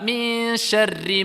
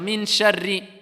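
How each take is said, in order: First: The n is hidden in a nasal hum. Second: The n is pronounced fully and clearly. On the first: The speaker calls it right. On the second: The speaker calls it wrong. "Il va prononcer le nun"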